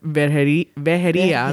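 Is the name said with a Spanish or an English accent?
Spanish. It is said with a Spanish pronunciation. "That's how you pronounce it in Spanish"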